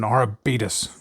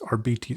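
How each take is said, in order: First: The word ends with a 'butus' sound. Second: The word ends with a 'bites' sound. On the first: This is a joke echoing a diabetes commercial. "It's much more fun to call it Arbutus" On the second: This is the proper name. "I think the proper pronunciation is Arbites"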